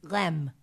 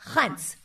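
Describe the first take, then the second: First: It is said like rem, ending in m. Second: It starts breathy, like h, and ends in n. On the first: The speaker calls it wrong. "I thought in French it was Rem, but it's not" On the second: The speaker calls it right. "It's like an H in the front and an N instead of an M"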